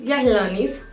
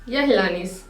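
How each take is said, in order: No difference in how they are said.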